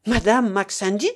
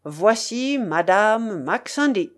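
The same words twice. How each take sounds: First: Indignant question, lifted at the end; energetic challenge. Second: Slow, stately announcement of a lady; announcing exclamation. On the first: Young woman rejects the name given her, energetically. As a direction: throw the name back as a challenge. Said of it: "dit-elle avec énergie". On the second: Host presents the lady to his guests, proclaiming. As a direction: present her grandly, drawing out each word. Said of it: "il ouvrit la porte en s'écriant". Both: A narrator's reading.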